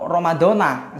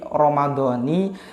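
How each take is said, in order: First: The word ends with a 'na' sound. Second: The word ends with a 'ni' sound. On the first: "Dibaca nah atau ni" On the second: "Dibaca nah atau ni"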